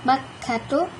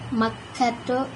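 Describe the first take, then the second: No difference in how they are said.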